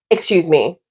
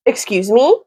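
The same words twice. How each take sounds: First: Firm rebuke. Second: "Excuse me?" asked with a rising, shocked lift on "me"; shocked question. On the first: Vlogger scolding the boyfriend's lie, firm falling rebuke. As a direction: shut it down flatly. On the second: Vlogger reacting to the boyfriend's lie, shocked rising question. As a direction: throw the question back in disbelief. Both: Real, not acted.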